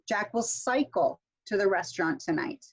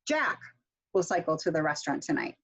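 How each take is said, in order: First: The stress is on cycle. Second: The stress is on Jack.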